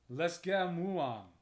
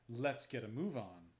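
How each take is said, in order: First: It is said as a fierce, frenzied roar. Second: It is said in an ordinary speaking voice.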